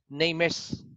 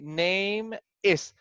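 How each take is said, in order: First: The two words are linked together. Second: The two words are said separately. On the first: The speaker calls it right. "so we make a connection" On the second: The speaker calls it wrong. "here we don't say name is"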